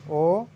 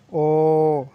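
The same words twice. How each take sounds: First: ओ said short and normal; plain ओ, no stretch. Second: ओ held longer and louder; stretched o. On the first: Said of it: "इस तरह". (सामान्य ओ) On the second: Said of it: "थोड़ा खींचेंगे ओ". (ओ खींचकर) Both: Shown as a demonstration.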